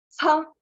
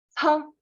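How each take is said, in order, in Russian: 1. Высокий тон с сильным придыханием. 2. Высокий тон с сильным придыханием.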